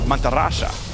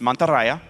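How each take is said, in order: First: The last syllable begins with an sh sound. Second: The last syllable begins with a y sound. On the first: This is how it is said in southern South America. "In deep South South America, the Y becomes an S H sound" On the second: This is how it is said in Spain. "in Spain, S- Spain Spanish, it's Mantarraya, right? You pronounce the Y normally"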